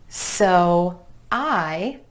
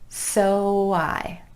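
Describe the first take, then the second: First: The two words are said separately. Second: The words are joined by a smooth glide.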